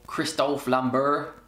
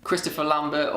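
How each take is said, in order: First: Christophe said the French way, no final r in Christophe; French pronunciation. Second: Said in the usual way. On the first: Shown as a demonstration. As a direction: Christophe Lambert, French style, slowly. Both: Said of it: "that's how you say his name in his native language".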